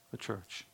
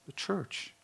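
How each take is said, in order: First: The church repeated almost silently; soft echo. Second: The church said high and soft; higher answer. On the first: Preacher echoing his answer, very soft. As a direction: let it fall to a hush. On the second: Preacher answering his own question, high and soft. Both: Shown as a demonstration. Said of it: "Who does Christ share his intimacy with?".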